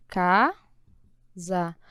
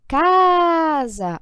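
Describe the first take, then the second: First: CASA split as CA, long pause, SA; syllable by syllable. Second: CASA with CA held long, loud and high; stressed syllable stretched. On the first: Teacher separating syllables, CASA split in two. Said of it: "vamos fazer separação". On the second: Teacher showing the strongest syllable, CA of CASA stretched loud. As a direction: lean on the CA of CASA and draw it out. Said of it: "Qual é a sílaba mais forte?". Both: Shown as a demonstration.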